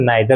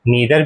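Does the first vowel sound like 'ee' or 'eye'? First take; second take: eye; ee. First: The first vowel sounds like 'eye'. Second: The first vowel sounds like 'ee'. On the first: "नाइदर भी कह सकते हैं" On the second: "नीदर भी कह सकते हैं"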